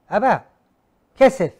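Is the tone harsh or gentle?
harsh. It is said in a harsh, demanding tone.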